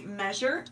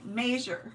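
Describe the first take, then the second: First: "measure" with the short e of "bed"; plain measure. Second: "measure" with a long A, as "may-zher", said slowly; imitating viewer's accent. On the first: Retold or imitated. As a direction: standard "measure" as "mezh-er". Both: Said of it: "you have an accent when you say measure".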